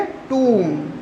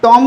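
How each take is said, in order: First: टूम softer and lower, vowel held as "tooom"; correct long oo. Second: टॉम with a short o, as in the name Tom; wrong short o. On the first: Teacher correcting the misreading, टूम with long oo. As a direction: stretch टूम with oo and a falling tune. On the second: Teacher warning of the misreading, टॉम with short o. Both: Shown as a demonstration. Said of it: "टॉम नहीं पढ़ेंगे इसे".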